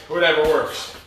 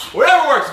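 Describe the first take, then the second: First: Said in the usual way. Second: "Whatever works" punched high and loud; stressed shout. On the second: Shown as a demonstration. Coach repeats phrase with emphasis.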